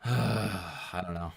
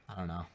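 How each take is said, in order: First: Sighing. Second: Said in the usual way. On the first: Real, not acted. Weary sigh before repeating.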